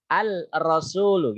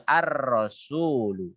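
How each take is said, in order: First: Al-rasulu with the lam voiced separately before the r; wrong unmerged al-rasulu. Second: Ar-rasulu with lam dropped into a doubled r; correct merged ar-rasulu. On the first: Teacher showing the awkward wrong reading al-rasulu. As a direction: say al-rasulu with the l hanging on the tongue. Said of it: "kayak ada yang gantung". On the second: Teacher giving the correct smooth ar-rasulu to students. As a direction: join straight into ar-rasulu, no l sound. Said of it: "disambungkan langsung ke ar-rasulu". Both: Shown as a demonstration.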